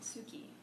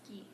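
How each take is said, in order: First: The u after the s is fully pronounced. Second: The u after the s is dropped. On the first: The speaker calls it wrong. "if I were to read this without having any knowledge of Japanese, I would read it like suki" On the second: The speaker calls it right. "I would omit the U sound a little bit, and so turn it into more of a ski"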